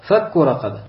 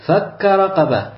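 First: The first word ends in a u vowel. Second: The first word ends in an a vowel. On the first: It means freeing a slave, as a noun. "То чтение, которым мы читаем" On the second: It means he freed a slave, as a verb. "второе чтение у этого аята"

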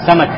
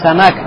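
First: The stress is on the first syllable. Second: The stress is on the second syllable. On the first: The speaker calls it right. "То есть ударение идет на первый слог" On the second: The speaker calls it wrong. "Не самак"

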